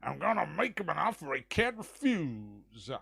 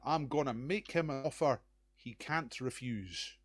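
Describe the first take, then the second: First: It is said in a put-on impression voice. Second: It is said in his own normal voice.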